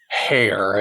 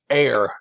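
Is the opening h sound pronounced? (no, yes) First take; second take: yes; no. First: The word starts with a clear h sound. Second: The word starts with a vowel, no h sound. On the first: The speaker calls it wrong. "not like hair" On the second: The speaker calls it right. "that's Carnahan's heir"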